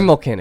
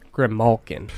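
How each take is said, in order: First: The word is said quickly and run together. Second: The word is said slowly and carefully.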